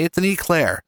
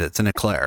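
First: "eclair" with a long EE first syllable; northern pronunciation of eclair. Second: "eclair" with an unstressed "uh" first syllable; lower, "eclair" said as uh-CLAIR; mocked southern pronunciation. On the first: Shown as a demonstration. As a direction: firmly say "eclair" as EE-clair. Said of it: "That's what they call it up here". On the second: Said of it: "You people down there, down in the south".

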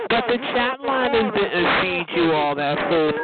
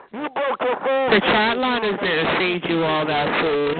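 First: Said in the usual way. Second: Repeated slowly so every word of "The chat line didn't feed you all that food" lands; slow emphatic repeat. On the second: Shown as a demonstration. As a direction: drag out each word to hammer it home. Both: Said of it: "repeats the line slower".

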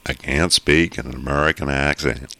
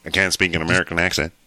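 First: Louder, lilting try at an American accent; attempted American accent. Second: Louder, quick American-accent attempt without pauses; quicker American accent. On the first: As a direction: put on your best American accent, with measured pauses. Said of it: "he's gonna say, "I can't speak in an American accent," the best way he can". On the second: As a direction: rattle it off in a put-on American accent. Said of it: "So I'll go say quicker". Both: Shown as a demonstration.

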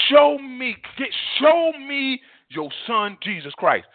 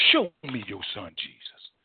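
First: Slow, high, insistent plea; fervent prayer. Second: Low, soft, humble plea; hushed prayer. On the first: Preacher modelling a prayer to the Father, fervently pleading. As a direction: cry it out, stretching the words. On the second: Preacher modelling a prayer to the Father, hushed. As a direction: drop right down and ask softly. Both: Shown as a demonstration.

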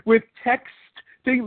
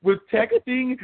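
First: "with texting" said very slowly, every sound crisp; enunciated. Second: Said in the usual way. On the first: Shown as a demonstration. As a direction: spell out "with texting" slowly and clearly. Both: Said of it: "let me enunciate".

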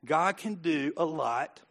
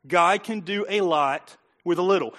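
First: Slow, soft and deliberate, each word weighed; slowed right down. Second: Said in the usual way. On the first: Shown as a demonstration. Preacher slowing down to calm the crowd, soft and slow. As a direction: ease off and let every word land slowly. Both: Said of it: "Slow it down".

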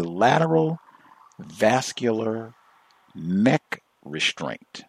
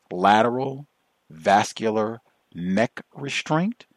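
First: Lateral vascular neck restraint, each word slow and spaced; slow, separated words of jargon; deliberate phrasing. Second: Mock-reverent whisper of the term; hushed and slow, savoring the jargon. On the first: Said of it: "That is precise codified language". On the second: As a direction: whisper lateral, then slow, reverent restraint. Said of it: "It sounds so scientific". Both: Shown as a demonstration.

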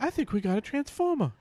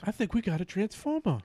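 First: Much higher, hammed-up Wahlberg voice; squeaky mock movie star line; Mark Wahlberg impression. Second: Raised pitch, half-hearted Wahlberg voice; lightly voiced movie star; Mark Wahlberg impression. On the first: Host redoes Wahlberg impression on request, pitched way up. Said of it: "all your impressions involve your voice getting higher". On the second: Podcast host mimics Mark Wahlberg for friends, raised pitch. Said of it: "Is that your Mark Wahlberg?".

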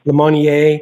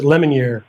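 First: Lemonnier said French-style, luh-MON-ee-ay; Lemonnier as luh-MON-yay; alternative pronunciation. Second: Lemonnier said LEM-un-eer; Anglicized Lemonnier, rhyming its end with ear; alternative pronunciation. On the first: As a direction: say Lemonnier with stress on MON, ending in AY. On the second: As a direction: say Lemonnier with stress up front, ending in EER. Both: Shown as a demonstration. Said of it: "or is it Le".

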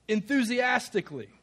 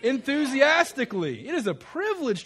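First: Said in the usual way. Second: Loud, high, rousing shout-out of the word; enthusiastic. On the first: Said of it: "a non-enthusiastic way of saying the word". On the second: Shown as a demonstration. Preacher showing the congregation an improved answer, enthusiastic. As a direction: belt it out with real zest. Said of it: "So let's improve on that".

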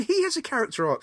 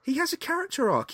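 First: Said in the usual way. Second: "He has a character arc" pitched far higher; emphatic insistence. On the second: Real, not acted. Insists after listener asks What?.

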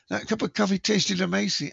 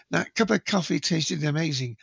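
First: Put-on a failed try at a New Zealand accent, pitched higher; shaky stab at a New Zealand accent; attempted New Zealand accent. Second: Said in the usual way. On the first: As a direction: have a go at a Kiwi accent and miss. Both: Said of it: "I can't do a New Zealand accent".

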